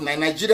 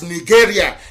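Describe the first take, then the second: First: It is said the usual way, as one word. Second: It is said like the two words 'Niger area'. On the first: The speaker calls it wrong. "not Nigeria is the uh, phone" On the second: The speaker calls it right. "that's the proper pronunciation"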